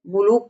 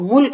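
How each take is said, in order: First: It is said as mulook, with an extra vowel. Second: It is said as mulk, with a consonant cluster. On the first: This is how village people say it. "ग्रामीण उच्चारण है" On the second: This is the standard Hindi form. "मुल्क है बच्चों इसका मूल रूप है"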